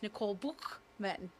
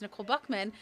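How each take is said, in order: First: The surname is said with a German throaty ch. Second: The surname is said with an English k sound. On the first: "in German it's" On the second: "my name obviously is"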